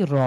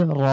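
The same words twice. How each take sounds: First: Said in the usual way. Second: র said thick, tongue curled back, mouth full; heavy r. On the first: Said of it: "স্বাভাবিকভাবে পড়ি তাহলে শোনাবে কি র". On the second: Shown as a demonstration. Teacher shows students the heavy Arabic র. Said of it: "জিভটাকে উল্টিয়ে মুখের ভেতরে ভরাট করে উচ্চারণের".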